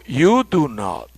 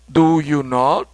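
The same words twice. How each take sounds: First: Slow "You do not" with weight on "You"; inverted order, slow. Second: Said in the usual way. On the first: Shown as a demonstration. Teacher contrasting the inverted form for students. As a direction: put the subject first and lean on it. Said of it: "ahora digo". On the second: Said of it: "En lugar de decir".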